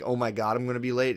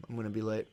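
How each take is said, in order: First: A touch of panic on "Oh my God, I'm gonna be late"; mock worry. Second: Soft, matter-of-fact self-talk; calm acceptance. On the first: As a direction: act out fretting about being late, mildly. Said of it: "rather than being". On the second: Retold or imitated. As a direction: say it softly, as nothing to freak out about. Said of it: "it helps me just be like".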